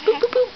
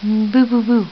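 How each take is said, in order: First: High, loud playful boos; peekaboo, up high and bright; squeaky boo. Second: Low, loud playful boos; peekaboo, deep and loud. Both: Real, not acted. Playing peekaboo with baby.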